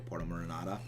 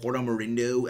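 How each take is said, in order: First: The second word ends with the sound 'inada'. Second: The second word ends with the sound 'indo'. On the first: The speaker calls it right. "I think is the correct phrasing" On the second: The speaker calls it wrong. "I used to always call it Porto Marindo, and I know that's wrong"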